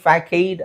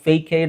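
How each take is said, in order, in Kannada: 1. ಇದರಲ್ಲಿ k ಶಬ್ದ ಮತ್ತು ಚಿಕ್ಕ a ಇದೆ. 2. ಇದರಲ್ಲಿ k ಶಬ್ದ ಮತ್ತು ದೀರ್ಘ a ಇದೆ. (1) "ಫ್ಯಾಕೈಡ್ ಅಥವಾ ಫೇಕೈಡ್ ಅಂತ ಅನ್ಸ್ಬೋದು" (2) "ಫ್ಯಾಕೈಡ್ ಅಥವಾ ಫೇಕೈಡ್ ಅಂತ ಅನ್ಸ್ಬೋದು"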